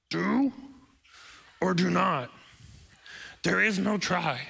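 It is said in a put-on Yoda voice.

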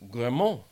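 The name is said with a French pronunciation. "in French, G-R-I-M-A-R-D is Grimoire"

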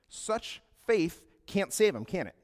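It ends flat and falling, like a statement.

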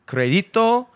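The name has an Eastern European accent. It follows the original pronunciation. "the first time he said it, Jimmy, with the Eastern European accent, that was like perfect"

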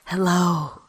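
It is said in a deep, raspy put-on voice.

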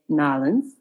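The city name is squeezed into Southern 'Nolans'.

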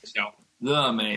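The middle syllable starts with an L sound. This is the Taiwanese way of saying it. "Taiwanese are lazier, southern, hot southern accents. ... it's like the tongue falls out"

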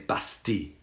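It is said with a French pronunciation. "The French say Bastille"

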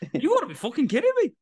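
It is said in an Irish accent.

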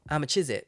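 The words are in a Leicester accent. "People from Leicester say"

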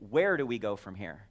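The word "where" carries the main stress. It asks about the destination. "Where is it that we're going?"

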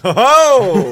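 It is said with charismatic, hearty flair.

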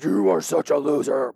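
It is said in a low, mean voice.

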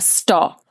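The word is said in a firm, strict tone. The thought is forcefully halted. The speaker calls it right. "strictest teacher kind of stop, maybe with a finger wag. You know, it's really a stop"

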